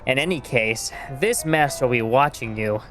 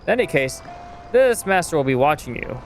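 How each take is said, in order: First: It is read in a put-on character voice. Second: It is read in the speaker's ordinary voice.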